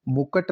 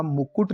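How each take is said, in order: First: मुकुट as "mu-kat"; short a after k in मुकुट; wrong pronunciation. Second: मुकुट as "mu-kut"; correct pronunciation. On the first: Teacher repeating the error, मुकुट as "mu-kat". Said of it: "नहीं होता". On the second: Teacher correcting the word, मुकुट as "mu-kut". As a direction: clear second u in मुकुट. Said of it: "लिखा जाएगा". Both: Shown as a demonstration.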